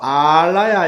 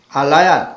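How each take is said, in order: First: The first vowel is held long. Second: The first vowel is said short. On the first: It means a dwelling or storehouse. "장음으로 알라야 이렇게 읽을 때는" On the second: It means something that does not vanish. "짧게 A 모음을 짧게 읽을 경우에는"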